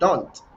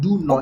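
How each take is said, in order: First: It is shortened into one contracted syllable. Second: It is said as two full separate words. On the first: "you say don't" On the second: "instead of saying do not"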